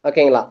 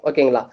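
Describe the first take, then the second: The two takes are said the same way.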